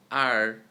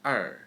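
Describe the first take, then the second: First: R as an open, loud American "ar". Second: Er with a smaller mouth and reduced "ah"; Chinese er. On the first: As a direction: say R wide open as in "car". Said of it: "So let's compare American R". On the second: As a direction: narrow the mouth on er, tongue curled. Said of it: "and Chinese er". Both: Shown as a demonstration.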